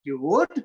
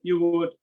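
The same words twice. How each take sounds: First: Friendly louder question, rising on WOULD; warm rising tone. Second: YOU WOULD said level, no rise on WOULD; louder, closed statement, WOULD left unwelcoming; frozen falling tone. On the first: Host to guest on the first day, warm rising tone on WOULD. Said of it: "Warm tone". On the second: Host to guest on the thirty-first, frozen falling tone on WOULD. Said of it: "falling tone on the last day of the month". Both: Shown as a demonstration.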